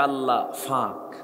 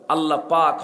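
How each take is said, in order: First: It is said with a Noakhali f sound. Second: It is said with a standard p sound.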